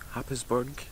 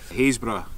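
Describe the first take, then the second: First: The name begins with a 'hap' sound. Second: The name begins with a 'hays' sound. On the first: The speaker calls it wrong. "It looks like it's said Happisburg" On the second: The speaker calls it right. "is how you pronounce it"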